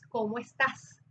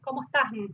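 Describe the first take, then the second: First: The s sounds are clearly pronounced. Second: The s sounds are dropped. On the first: The speaker calls it right. "es cómo estás" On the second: The speaker calls it wrong. "no es cómo estás"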